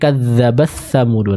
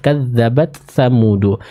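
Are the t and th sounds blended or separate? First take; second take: blended; separate. First: The t and th sounds blur together. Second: A fully stopped t precedes a distinct th. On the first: The speaker calls it wrong. "masih tercampur antara ta dan tha-nya" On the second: The speaker calls it right. "huruf ta-nya dengan sukun yang sempurna lalu masuk ke huruf tha"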